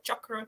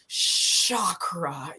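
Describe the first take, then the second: First: The word begins with a ch sound. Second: The word begins with an sh sound. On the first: The speaker calls it right. "my guru came from India, he was like" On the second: The speaker calls it wrong. "go for the sh"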